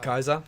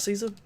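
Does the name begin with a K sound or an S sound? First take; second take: K sound; S sound. First: The name begins with a hard k sound. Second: The name begins with a soft s sound. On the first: "always pronounces Caesar as Kaiser" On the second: "actually pronounced him as Caesar"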